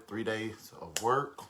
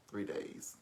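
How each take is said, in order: First: Said in the usual way. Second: Hushed repeat of the count; whispered aside. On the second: Real, not acted. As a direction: whisper the repeat under your breath. Repeats the count under breath.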